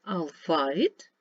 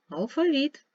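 First: Алфавіт stressed at the end, ал-фа-ВІТ; stress on last syllable. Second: Алфавіт stressed in the middle, ал-ФА-віт; stress on middle syllable. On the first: Teacher reading stress words for pupils: ал-фа-ВІТ. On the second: Teacher reading stress words for pupils: ал-ФА-віт. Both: Shown as a demonstration. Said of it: "позначте в них наголос".

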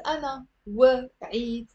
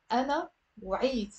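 First: وعيت broken into "wuh... iit" after أنا; wrongly split syllables. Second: وعيت after أنا squeezed into one beat, "w'iit"; أنا, then وعيت as a single syllable. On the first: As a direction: add a vowel after the w in وعيت and pause. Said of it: "It's not". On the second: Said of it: "it's one syllable". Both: Shown as a demonstration.

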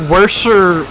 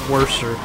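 First: "worser" said higher and a bit louder, landing hard; "worser" tried out with a lift; emphatic try. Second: "worser" trailed off doubtfully; quiet repeat. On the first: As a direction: push out "worser" as a searching emphatic word. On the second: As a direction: repeat "worser" under the breath. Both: Shown as a demonstration.

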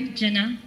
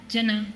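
The two takes are said the same way.

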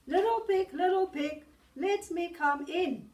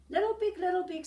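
First: Loud, higher booming wolf call. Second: Loud booming wolf call. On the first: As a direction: shout it up the door like the big bad wolf. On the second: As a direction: call out like the big bad wolf at the door. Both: Acted. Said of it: "said the wolf".

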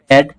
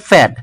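First: Said in the usual way. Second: ফ্যাড with a puffed p, "phæd"; aspirated P. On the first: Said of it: "প্যাড হবে কি". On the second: Shown as a demonstration. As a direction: burst air into the start of ফ্যাড. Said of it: "উচ্চারিত হবে". (ফ্যাড মহাপ্রাণ ফ দিয়ে)

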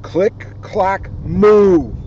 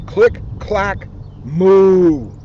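No difference in how they are said.

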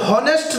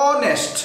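First: হনেস্ট with the h sounded; wrong version, হনেস্ট with h; wrong honest with h. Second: অনেস্ট with no h, starting on o; corrected, অনেস্ট said without h; right honest, silent h. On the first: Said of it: "তাহলে হনেস্ট না". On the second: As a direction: drop the h: অনেস্ট. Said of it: "না, অনেস্ট". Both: Shown as a demonstration.

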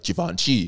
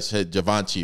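First: Givenchy with a soft French "zh" start and nasal middle; posh French Givenchy. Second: Said in the usual way. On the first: Shown as a demonstration. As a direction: say Givenchy in an overly correct French way. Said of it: "too correctly". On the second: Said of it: "like, Givenchy".

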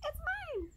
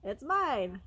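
First: Tiny, very high squeak; sky-high rodent voice; squeaking vole. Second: Lightly groaned claim; a hint of a grumbly mole; groaning mole. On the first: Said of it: "squeaked the vole". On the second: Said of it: "groaned the mole". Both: A narrator's reading.

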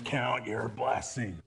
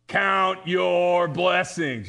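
First: Muttered reminder. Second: Firm reminder. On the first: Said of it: "we'd be out raking leaves". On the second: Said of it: "my mom would say". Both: Retold or imitated.

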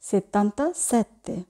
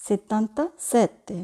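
Both takes have the same delivery.

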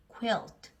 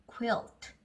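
The two takes are said the same way.

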